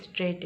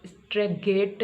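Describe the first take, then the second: First: स्ट्रेट with a silent G, no G sound; स्ट्रेट as one smooth syllable, no G; correct pronunciation. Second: स्ट्रेगेट with the G sounded, said slowly; wrong pronunciation. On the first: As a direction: say स्ट्रेट cleanly, G dropped. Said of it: "ये स्ट्रेट है". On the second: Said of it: "ये स्ट्रेगेट नहीं है". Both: Shown as a demonstration.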